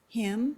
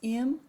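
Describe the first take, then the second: First: The h sound is clearly pronounced. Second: The h sound is dropped. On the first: "Him becomes im or um" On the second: "Him becomes im or um"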